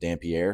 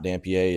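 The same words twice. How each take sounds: First: The name is given an English-style pronunciation. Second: The name is given a French-style pronunciation. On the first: The speaker calls it right. "It is" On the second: The speaker calls it wrong. "I thought that it was pronounced like French. It is not"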